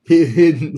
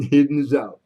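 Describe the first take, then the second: First: Loud call across the room. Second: Said in the usual way. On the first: Real, not acted. Calling out a bidder's name.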